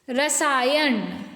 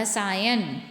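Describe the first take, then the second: First: रसायन said slowly as "rasaayaṇ"; drawn-out रसायन with final ण; ण ending. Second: रसायन said as "rasaayan"; न ending. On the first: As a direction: curl the tongue for a retroflex n ending रसायन. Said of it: "ण नहीं आता". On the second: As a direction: end रसायन on a dental n. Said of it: "न आता है". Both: Shown as a demonstration.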